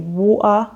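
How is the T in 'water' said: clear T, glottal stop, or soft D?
glottal stop. The middle T is dropped as a glottal stop. The speaker calls it wrong. "some people will say water. This is known as a glottal stop"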